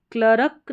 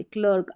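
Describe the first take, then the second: First: क्लर्क split as "kla-ruk"; क्लर्क with an extra vowel after the R; wrong full R. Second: क्लर्क as one syllable, R only half sounded; barely touch the R in क्लर्क; क्लर्क said "klurk" with a light R. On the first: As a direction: sound a whole R syllable in क्लर्क. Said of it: "क्लर्क नहीं बोल रहे". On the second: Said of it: "आर का sound इसमें आधा आ रहा है". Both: Shown as a demonstration.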